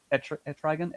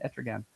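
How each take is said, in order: First: Etrigan said as "eh-TRY-gun", questioning; stumbled pronunciation. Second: Etrigan as "ET-ruh-gan", low and soft; Etrigan with stress up front, falling away; self-corrected pronunciation. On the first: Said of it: "I was stumbling". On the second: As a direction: quietly correct Etrigan, short middle vowel. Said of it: "getting stuck up in the pronunciation". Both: Real, not acted.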